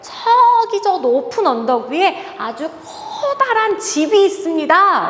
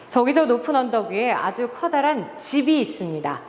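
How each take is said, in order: First: The words 저기 and 커다란 are stressed expressively. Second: The word 집 is given extra stress. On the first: "내가 원하지 않아도 저기라고 말하게 되고요. 커다란이라고 말하게 되죠" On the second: "집이라는 단어에 한번 강조를 줘볼게요"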